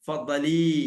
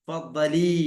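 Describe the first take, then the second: No difference in how they are said.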